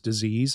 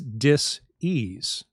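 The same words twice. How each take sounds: First: The word is said smoothly as one unit. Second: The word is split into two separate parts. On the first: A pathological process. "the way we all do" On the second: A state of not being at ease. "you can hyphenate it and say"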